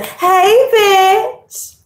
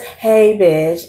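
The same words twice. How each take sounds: First: It is said boldly, with a strong voice. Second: It is said timidly, holding the voice back.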